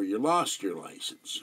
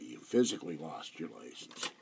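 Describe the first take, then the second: First: Slow, weight on "lost"; "lost" leaned on as the punchline, said slowly; deadpan pun, "lost" stressed. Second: "physically" hit hard, rest softer; stress on physically. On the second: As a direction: explain the joke by leaning on "physically". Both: Shown as a demonstration.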